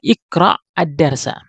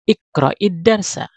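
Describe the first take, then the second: First: The words are said separately without a linking vowel. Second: The words are joined with a linking i vowel. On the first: "Kalau di di Penggal cara bacanya adalah iqra" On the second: "Kalau kita sambung ... sukun yang pertama diberi baris kasroh"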